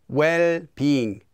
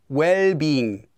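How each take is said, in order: The two takes are said the same way.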